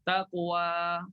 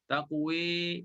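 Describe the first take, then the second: First: The final vowel is a plain open a. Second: The final vowel is tilted toward e.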